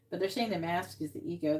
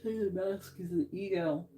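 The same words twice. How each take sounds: First: Said in the usual way. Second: Talking through a yawn; words stretched by a yawn. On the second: Real, not acted. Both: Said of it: "I don't know why I'm yawning".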